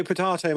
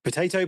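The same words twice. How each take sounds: First: "potato" said puh-TAH-toh, broad AH in the middle. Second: "Potato" said puh-TAY-toh, long AY in the middle. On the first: Cohost brushing off a wording quibble, "potato" as puh-TAH-toh. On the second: Cohost brushing off a wording quibble, "Potato" as puh-TAY-toh. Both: Shown as a demonstration. Idiom contrasting two pronunciations.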